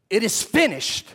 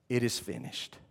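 First: It is said as a firm declaration. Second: It is said as a relieved sigh.

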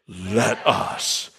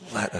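First: The phrase is said in a solemn, stately manner. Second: The phrase is said in an ordinary, plain manner. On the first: "Say it dignified" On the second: "Say it again"

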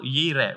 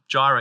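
First: The word begins with a Y sound. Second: The word begins with a J sound.

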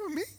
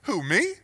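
First: It is said at a higher pitch. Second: It is said at a lower pitch.

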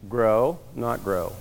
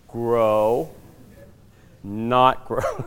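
First: It is said at a normal speed. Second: It is said very slowly.

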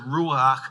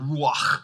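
First: It is said in a casual, anglicized way. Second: It is said in a careful Hebrew pronunciation. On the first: The speaker calls it wrong. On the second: The speaker calls it right.

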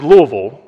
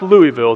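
First: It is said the local way. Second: It is said the outsider way. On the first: The speaker is from the area. The speaker calls it right. "that it is Louisville" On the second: The speaker is from out of state. The speaker calls it wrong. "it is not pronounced Louisville"

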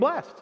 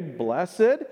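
First: The word is said with one syllable. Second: The word is said with two syllables. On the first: It sounds like everyday speech. "When we're out of the church, we'll talk about being blessed" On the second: It sounds more religious and spiritual. "When we're in church, we'll say blessed"

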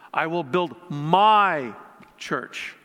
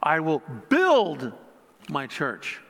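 First: The word 'my' is stressed. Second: The word 'build' is stressed.

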